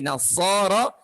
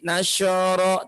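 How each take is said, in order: First: The middle consonant is an 's' sound. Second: The middle consonant is a 'sh' sound. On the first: The speaker calls it right. "tidak nasyara tapi nasara" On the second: The speaker calls it wrong. "Ada juga yang suka menyebutkan huruf so-nya dengan huruf sya"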